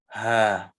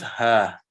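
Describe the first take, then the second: First: The syllable begins with a breathy h sound. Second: The same.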